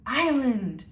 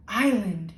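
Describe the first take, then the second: First: A bit higher, calling out; calling again. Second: Calling out, drawn out; calling a cat. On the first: Lola calling the island again like a cat. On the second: Lola in the elevator, calling the island like a cat. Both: A narrator's reading. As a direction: call it like summoning a cat. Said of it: "she called, like it was a cat".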